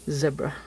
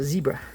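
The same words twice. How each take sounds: First: The first syllable has a short e, like Deborah. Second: The first syllable has a long e sound. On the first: This is how it is said in southern Africa. "that's the way they pronounce it there" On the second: This is how it is said at home. "we pronounce it zebra"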